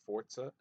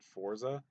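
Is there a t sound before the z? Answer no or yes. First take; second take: yes; no. First: It is said with a t sound. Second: It is said without a t sound. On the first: This is the British pronunciation. "with like a, a T in there" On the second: This is the American pronunciation. "us in America, we pronounce it"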